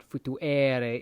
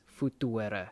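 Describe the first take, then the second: First: Futuere with a long, stressed E; wrong long E. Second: Futuere slowly with a short, unstressed E. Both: Shown as a demonstration. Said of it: "this E is short".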